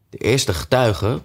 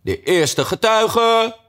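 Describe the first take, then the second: First: Said in the usual way. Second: High, drawn-out herald's cry; loud call. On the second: A narrator's reading. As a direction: stretch it out like a court crier. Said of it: "riep luid".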